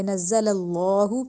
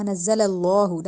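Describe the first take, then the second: First: نزل اللہ slow with a light, thin l in اللہ; the wrong way, thin lam; thin Allah, wrong. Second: نزل اللہ with a full, heavy lam; heavy Allah. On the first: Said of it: "اللہ کو موٹا نہیں کیا". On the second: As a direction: correct tajweed. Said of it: "ہم نے اس کو موٹا کیا". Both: Shown as a demonstration.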